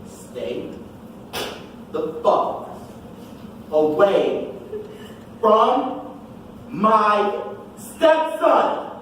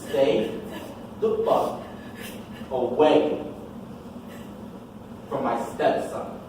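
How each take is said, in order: First: It is said slowly and deliberately. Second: It is said at a normal speed.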